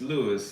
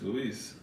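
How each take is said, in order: First: The name is pronounced the English way. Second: The name is pronounced the Spanish way. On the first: "In English" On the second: "In Spanish"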